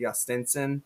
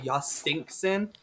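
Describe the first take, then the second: First: The middle syllable sounds like 'stin', without a k. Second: The middle syllable sounds like 'stink', with a k. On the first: It is the technically correct form. The speaker calls it right. "although it's technically Justinson" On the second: It follows an old pronunciation guide. The speaker calls it wrong. "So I always say Jostinkson"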